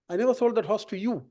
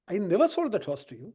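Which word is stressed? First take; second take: you; never. First: The word 'you' carries the main stress. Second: The word 'never' carries the main stress. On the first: The horse went to another buyer. "I sold it to somebody else" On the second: Selling horses is not something the speaker does. "It's not a business to sell horses"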